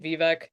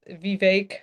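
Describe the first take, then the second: First: The last syllable rhymes with deck. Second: The last syllable rhymes with cake. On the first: The speaker calls it wrong. "I was pronouncing it Vivek uh for a while" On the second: The speaker calls it right. "I apologize, the, Vivek"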